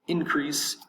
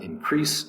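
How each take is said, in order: First: The stress is on the first syllable. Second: The stress is on the second syllable. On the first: The speaker calls it right. "The first syllable is going to be accented" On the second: The speaker calls it wrong. "It's not increase"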